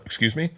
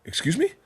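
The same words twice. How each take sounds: First: Said in the usual way. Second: High incredulous excuse me; stunned disbelief, pitch jumps up; shocked. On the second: Retold or imitated. Retelling to friends, a shocked disbelieving reply.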